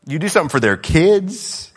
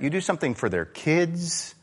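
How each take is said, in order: First: Something pushed louder with a rising end; louder repeat landing on something; stress on something. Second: Said in the usual way. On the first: Shown as a demonstration. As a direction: hit the word something hard.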